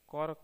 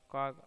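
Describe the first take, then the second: First: The word ends with a k sound. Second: The word ends with a g sound. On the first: This is the original English form. "अंग्रेजी का क" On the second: This is the form used in Hindi. "Hindi में ग हो जाता है"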